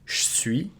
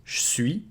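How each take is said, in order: First: The E of 'je' is dropped. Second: The E of 'je' is dropped.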